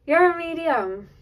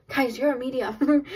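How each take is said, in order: First: High, slow, laughing through it; real delighted laugh as you repeat it; beaming laugh over the words; laughing with joy. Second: Said in the usual way. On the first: Real, not acted. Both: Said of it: "I don't know why I'm laughing".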